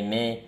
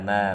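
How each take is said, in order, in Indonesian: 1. Vokalnya dinaikkan mendekati e. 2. Vokalnya adalah a yang terbuka dan datar. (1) "jangan sampai me me me me" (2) "tapi ma ma ma"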